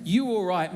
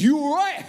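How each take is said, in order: First: Said in the usual way. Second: Loud, high mock-threatening challenge. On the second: Shown as a demonstration. How Australians hear the British greeting, threatening. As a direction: throw it out as a hammed-up confrontation. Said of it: "were being threatening".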